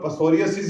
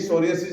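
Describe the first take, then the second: First: The word starts with a p sound. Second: The word starts directly with an s sound.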